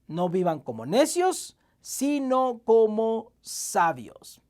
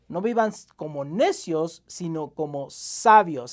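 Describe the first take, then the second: First: The line is read a little more slowly. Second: The line is read at a normal pace.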